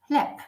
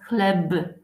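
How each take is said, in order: First: The final sound is a voiceless p. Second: The final sound is a voiced b. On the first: The speaker calls it right. "Everyone says chleb" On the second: The speaker calls it wrong. "we don't say b at the end. Nobody says chleb"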